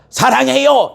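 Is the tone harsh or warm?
harsh. It is said in a harsh, unfriendly tone. The kind words are undercut by bad feeling. The speaker calls it wrong. "이건 아니잖아요"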